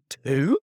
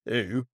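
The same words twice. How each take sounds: First: It is said with a surprised tone. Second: It is said flatly, as a plain answer.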